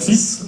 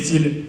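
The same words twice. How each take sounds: First: The word ends with an s sound. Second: The word ends without an s sound. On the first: It means a male child. "tu es mon fils" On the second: It means threads. "j'ai démêlé les fils"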